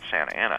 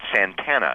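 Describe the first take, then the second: First: Both words are kept apart in four syllables. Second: The two middle vowels merge into three syllables. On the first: The dictionaries give this form. "it's not Santa Ana" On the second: Longtime locals insist on this form. "it's Santana"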